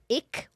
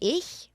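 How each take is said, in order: First: It is said in a Berlin accent. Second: It is said in standard German.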